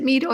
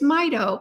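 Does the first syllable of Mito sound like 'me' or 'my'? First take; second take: me; my. First: The first syllable sounds like 'me'. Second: The first syllable sounds like 'my'. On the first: The speaker calls it wrong. "I always pronounced it Mito, and you know what? I found out that was wrong" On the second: The speaker calls it right. "It's Mito for mitochondria"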